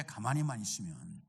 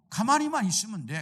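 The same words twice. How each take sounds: First: 가만히만 repeated much lower and softer; quiet echo. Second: Said in the usual way. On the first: Shown as a demonstration. Preacher echoing the phrase to himself, low and soft. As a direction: let "가만히만 있으면" drop to a low murmur.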